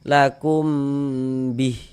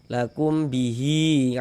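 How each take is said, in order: First: The word ends on a bare h sound. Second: The word ends with a long i vowel. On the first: The reader stops after this word. "ada panjangnya kita baca lakum bih bih gitu" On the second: The reader joins this word to the next one. "kalau kita wasolkan baru dia berlaku"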